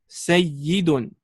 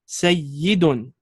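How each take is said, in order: First: The middle consonant is a doubled y sound. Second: The middle consonant is a doubled y sound.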